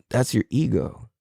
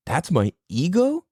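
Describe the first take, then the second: First: Said in the usual way. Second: "ego" lifted in a rising question; questioning echo. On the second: Acted. Seeker echoing guide's answer, "ego" rising incredulously. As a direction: echo it in disbelief, pitch climbing on "ego".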